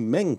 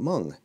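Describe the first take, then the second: First: The vowel is an 'e' sound, as spelled. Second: The vowel is a 'u' sound. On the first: This is the familiar English reading of the name. "what I would call a Meng kit" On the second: This is the original Chinese pronunciation of the name. "he pronounced it Meng"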